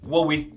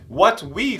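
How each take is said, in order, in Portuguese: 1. É dito em um ritmo mais rápido e conectado. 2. É dito em um ritmo mais lento e cuidadoso.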